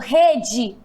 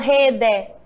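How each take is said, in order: First: The final vowel sounds like 'ee'. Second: The final vowel sounds like 'eh'. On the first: The speaker calls it right. "o E tem som de quê? De I" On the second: The speaker calls it wrong. "Eu não falo rede"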